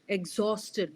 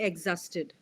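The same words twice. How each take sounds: First: The middle O vowel is clearly audible. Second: The middle O vowel is weak and unclear. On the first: The speaker calls it right. "The O sound should be clearly audible" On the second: The speaker calls it wrong. "We will not say exhausted"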